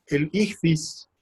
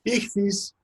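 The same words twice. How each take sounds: First: "ichthys" drawn out slowly as ICK-thees, falling at the end; Greek word ichthys. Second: "Ichthys" said again higher, with a falling finish; repeating ichthys. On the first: Introducing the Greek word to students, slow careful pronunciation. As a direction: lecturer spelling out "ichthys" slowly for the class. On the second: Repeating the Greek word for students, pitched higher. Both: Shown as a demonstration. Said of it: "que es la palabra griega para pez".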